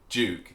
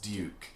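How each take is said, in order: First: It begins with a 'j' sound. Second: It begins with a 'dy' sound. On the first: This is the modern everyday form. The speaker calls it wrong. "If they hear you say Duke" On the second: This is the old-fashioned correct form. The speaker calls it right. "they'll say it's Duke"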